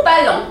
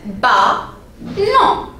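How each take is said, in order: First: Said in the usual way. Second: BALLON broken into two separate syllables. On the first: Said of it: "le mot ballon". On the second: Shown as a demonstration. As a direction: say "Ballon" with a clear pause between syllables. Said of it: "combien de syllabes?". (« Ballon » découpé en deux syllabes)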